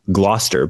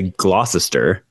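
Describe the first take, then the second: First: "Gloucester" as GLOS-ter; middle glossed over. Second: "Gloucester" as GLOSS-es-ter; middle pronounced. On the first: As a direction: say "Gloucester" in two syllables. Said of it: "glaze over that middle part". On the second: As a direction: say "Gloucester" in three syllables. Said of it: "but people say". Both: Shown as a demonstration.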